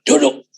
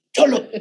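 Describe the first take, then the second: First: Said in the usual way. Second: Higher, stern snapped sit down; a glaring order to sit; stern command. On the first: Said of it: "bukan lagi kalem". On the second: Retold or imitated. Ordering the child to sit, eyes bulging and stern. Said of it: "Matanya udah melotot".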